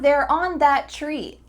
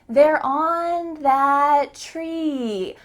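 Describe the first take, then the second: First: It is said at normal pitch with short vowels. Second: It is said higher with long, stretched vowels. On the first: "But I didn't say it like that" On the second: "Those vowels are elongated"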